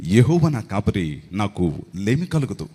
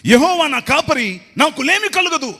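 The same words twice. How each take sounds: First: Lower, slow, like a film dialogue; dialogue delivery. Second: Loud, high, slow shouted verse; shouting. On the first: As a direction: deliver the verse like a movie line. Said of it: "dialogue చెప్తున్నట్టుందరా". (Dialogue లాగా) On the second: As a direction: belt the psalm out like a preacher. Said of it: "అరుస్తున్నావేంట్రా?". (అరుస్తూ చదవడం) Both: Retold or imitated.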